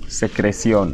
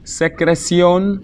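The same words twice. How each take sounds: First: Said in the usual way. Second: "Secreción" high and drawn out, pitch held up; slow model pronunciation. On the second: Shown as a demonstration. Teacher introduces a word to learners, high and slow. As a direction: stretch "Secreción" syllable by syllable, high.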